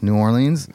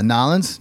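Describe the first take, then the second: First: Said in the usual way. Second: "Nolens" run together as two syllables; local pronunciation. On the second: Shown as a demonstration. Host showing East Coast place names, "Nolens" slurred into two syllables. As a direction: squash the name down to "Nolens". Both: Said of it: "East Coast and certain places".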